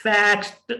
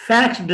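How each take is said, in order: First: फैक्स्ड ending in a t; फैक्स्ड said as fakst; फैक्स्ड with a crisp final t. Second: फैक्स्ड ending in a d sound; फैक्स्ड with a voiced final d; wrong d ending. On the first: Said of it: "टे की आवाज". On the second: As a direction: say फैक्स्ड as faxd. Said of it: "फैक्स्ड नहीं है". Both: Shown as a demonstration.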